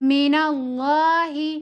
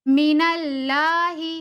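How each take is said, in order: First: The L in Allah is heavy and full. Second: The L in Allah is thin and light. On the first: The speaker calls it right. "इस वाले लाम को हमें मोटा पढ़ना है" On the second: The speaker calls it wrong. "लाम को अगर बारीक पढ़ा जाए"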